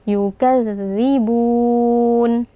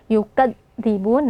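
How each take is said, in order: First: The dh sound is soft and flows smoothly. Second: The dh sound is pressed hard and cut off. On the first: The speaker calls it right. "kita baca dengan lembut dan lunak" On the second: The speaker calls it wrong. "huruf zalnya terlalu kuat ditekan sehingga suaranya terputus"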